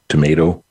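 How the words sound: It has a North Dakota pronunciation.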